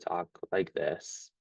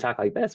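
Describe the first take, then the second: First: The voice is flat and dull, without expression. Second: The voice is upbeat, happy and smiling. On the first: The speaker calls it wrong. "I was I was kind of dull, didn't have any expression here" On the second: The speaker calls it right. "you're more upbeat and you're smiling"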